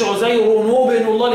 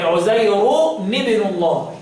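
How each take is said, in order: First: عزير ابن الله linked with -nu, as 'uzayrunu-bnu; wrong damma reading. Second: Slow عزير ابن الله, linked as 'uzayruni-bnu; recited عزير ابن الله, i-vowel on the nunation; nunation with kasra. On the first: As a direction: put a u-vowel on the nunation between عزير and ابن. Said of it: "ما تقولش عزير ابن الله للكسائي". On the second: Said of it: "وبالكسر". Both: Shown as a demonstration.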